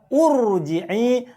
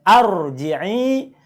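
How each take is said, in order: First: The word begins with a u vowel. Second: The word begins with an a vowel. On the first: "bukan juga urji'i" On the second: "bacanya bukan arji'i"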